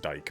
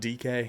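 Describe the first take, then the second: First: The name is said as one syllable. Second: The name is said as two syllables. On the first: "I just I can't imagine it's" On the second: "I'm going with D K to pronounce this"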